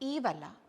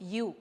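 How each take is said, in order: First: The word starts with a long 'ee' vowel. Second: The word starts with a 'y' sound. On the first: The speaker calls it wrong. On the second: The speaker calls it right. "It's യു"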